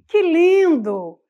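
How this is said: It is read full of emotion. The speaker calls it right. "eu tenho que carregar de emoção"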